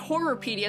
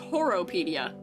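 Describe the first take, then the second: First: The name has three R sounds, like horror. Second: The name has only two R sounds. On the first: The speaker calls it wrong. "it's not Horrorpedia" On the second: The speaker calls it right. "There's no third R"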